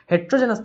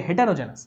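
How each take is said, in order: First: Heterogeneous said as "heterojenas", the wrong version; wrong spelling read out. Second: Heterogeneous said as "hetero-jenias", the right version; correct spelling read out. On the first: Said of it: "Heterogeneous তো হবে না". (ভুল বানান হিসেবে Heterogeneous পড়া) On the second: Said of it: "হবে heterogeneous". (সঠিক বানান হিসেবে heterogeneous স্পষ্ট করে পড়া) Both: Shown as a demonstration.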